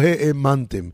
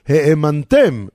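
First: The stress is on the second-to-last syllable. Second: The stress is on the last syllable. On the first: You yourselves believed. The speaker calls it wrong. "ולא" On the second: You caused others to believe. The speaker calls it right. "אותו הדבר פה"

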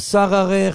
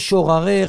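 First: It is said with a first vowel a. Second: It is said with a doubled r syllable. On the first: "לא שררך" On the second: "לא שוררך"

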